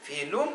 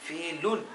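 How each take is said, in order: First: फेलुन with final n turned to m; m ending before meem. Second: फेलुन closed with an n; n ending. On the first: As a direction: close the lips on फेलुन's ending, "felum". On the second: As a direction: end फेलुन on the tongue-tip n. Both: Shown as a demonstration. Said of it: "तो अगर मीम आ गया".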